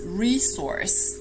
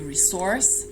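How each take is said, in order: First: The stress is on the first syllable. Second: The stress is on the second syllable. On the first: "the pronunciation in American English is resource. That's the most common one" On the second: "You can also stress the second syllable"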